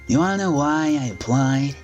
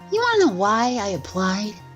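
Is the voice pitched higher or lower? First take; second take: lower; higher. First: The voice is pitched lower. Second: The voice is pitched higher. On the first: "you just grab the Adachi voice" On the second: "And then you just add a higher pitch"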